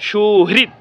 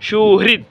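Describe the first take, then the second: No difference in how they are said.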